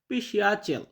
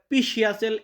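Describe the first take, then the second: First: The first p sound is light and soft. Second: The first p sound is strong and full. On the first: The speaker calls it right. "পির সাউন্ড হালকা আসে" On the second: The speaker calls it wrong. "এমনটা উচ্চারণ হয় না"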